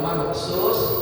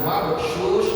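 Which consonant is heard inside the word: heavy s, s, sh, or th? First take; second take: s; sh. First: The middle consonant is a plain s sound. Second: The middle consonant is an sh sound. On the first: "Kalau mabthus sin" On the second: "Kalau mabthus shin"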